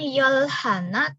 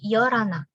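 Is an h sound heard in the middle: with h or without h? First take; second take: with h; without h. First: The h sound is pronounced after yol. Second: The h sound drops and yol links to ana. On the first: The speaker calls it wrong. "Bukan yolhana" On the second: The speaker calls it right. "tapi yorana. Hanya luruh"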